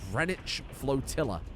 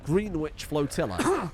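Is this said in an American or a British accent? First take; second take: British; American. First: It is said in a British accent. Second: It is said in an American accent.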